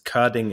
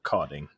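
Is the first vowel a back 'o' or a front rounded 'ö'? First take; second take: front rounded; back. First: The first vowel is a front rounded 'ö'. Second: The first vowel is a plain back 'o'. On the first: This is the original German pronunciation. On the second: This is the Americanized pronunciation.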